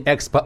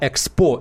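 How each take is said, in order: First: The word is said the usual Russian way. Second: The word is said in a French-like way. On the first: This is the form the speaker is not using. "я говорю не Экспо" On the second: This is the form the speaker caught himself using. "а Экспо"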